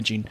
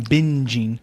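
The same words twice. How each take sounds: First: "binging" slurred towards "bitching"; sounds like bitching. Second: Slow, careful "binging" with a clear N; corrected binging. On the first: Real, not acted. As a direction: lose the N in "binging" so it lands as "bitching". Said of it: "That sounded like I said bitching". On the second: Shown as a demonstration. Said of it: "not bitching".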